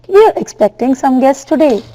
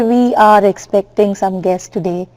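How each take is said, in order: First: 'We are' is contracted into one syllable. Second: 'We are' is said as two full words. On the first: The speaker calls it right. "So normally you speak like that" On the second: The speaker calls it wrong. "You don't say"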